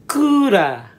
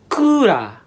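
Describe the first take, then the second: First: It is said with Japanese sounds, as ku-ra. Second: It is said with Japanese sounds, as ku-ra.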